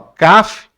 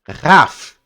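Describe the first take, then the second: First: It starts with a hard, stopped k sound. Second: It starts with a raspy, breathy kh sound. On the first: The letter carries the dot. "o Kaf" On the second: The letter has no dot. "sem o ponto, ele é o Rá"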